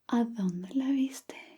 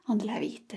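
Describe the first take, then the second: First: It is said slowly with clear consonants. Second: It is said fast with blurred consonants.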